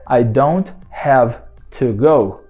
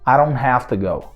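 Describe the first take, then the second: First: The words are said carefully and separately. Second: The words are run together in fluent speech. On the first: "na verdade é" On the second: "na fala corriqueira, na fala fluente"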